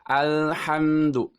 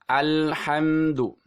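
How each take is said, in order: The two takes are said the same way.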